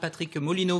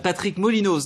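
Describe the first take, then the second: First: The name ends without a final consonant sound. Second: The name ends with a final consonant sound. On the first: The speaker calls it wrong. "en Franche-Comté on prononce pas le Z" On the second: The speaker calls it right. "Molinos, pardon"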